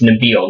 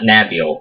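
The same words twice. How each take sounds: First: Nabil said without English vowel sounds; correct pronunciation. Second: Nabil said with English vowel sounds; anglicized mispronunciation. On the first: Correcting Jake on the name, Nabil pronounced properly. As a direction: say Nabil the native way, unstressed first vowel. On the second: Showing Jake the wrong name, Nabil mispronounced with English vowels. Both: Shown as a demonstration. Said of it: "It doesn't use English vowel sounds".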